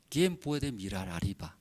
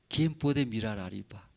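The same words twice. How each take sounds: The two takes are said the same way.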